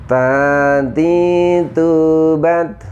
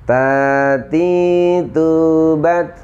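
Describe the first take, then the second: The two takes are said the same way.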